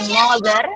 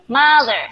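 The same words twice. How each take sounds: First: The first vowel is a rounded 'o' sound. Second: The first vowel is not a rounded 'o' sound. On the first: The speaker calls it wrong. "Bukan mo ya, bukan mother" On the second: The speaker calls it right. "tapi mother"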